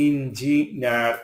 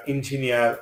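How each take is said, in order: First: "engineer" broken into separate syllables; "engineer" pulled apart for learners; split syllables. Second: Said in the usual way. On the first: Shown as a demonstration. Word split by syllable, then whole.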